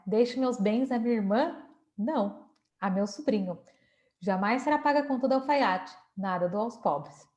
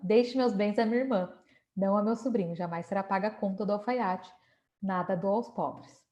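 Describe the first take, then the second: First: The pause comes after 'não', not before it. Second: The pause comes before 'não', not after it.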